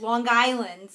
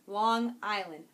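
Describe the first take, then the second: First: "Long Island" as one word, a hard g sliding into "Island"; run-together Long Island. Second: "Long Island" slowly as two separate words; careful, slow "Long Island" with a clean break. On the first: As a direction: say "Long Island" like "Lawn Guyland", loudly. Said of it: "it's not Guyland". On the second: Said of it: "I really have to think about it". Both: Shown as a demonstration.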